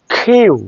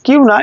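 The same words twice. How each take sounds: First: "কিউ" with an aspirated k, drawn out; long k-hyoo glide on "কিউ"; correct English Q. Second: Said in the usual way. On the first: Shown as a demonstration. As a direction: puff air into the k of "কিউ". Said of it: "এটা খারাপ position".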